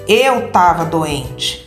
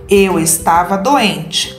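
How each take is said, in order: First: The first syllable of estava is dropped. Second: The word estava is said in full. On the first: This is the informal way of speaking. The speaker calls it wrong. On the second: This is the formal way of speaking. The speaker calls it right.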